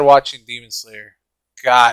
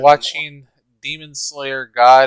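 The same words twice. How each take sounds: First: A pause separates Slayer from God. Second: Slayer and God run together without a pause. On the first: God is an exclamation before the verdict. The speaker calls it right. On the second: God is part of the show's name. The speaker calls it wrong.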